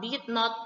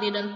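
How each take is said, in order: First: The two words are said separately and fully. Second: The two words are shortened into one syllable. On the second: "bisa disingkat menjadi didn't"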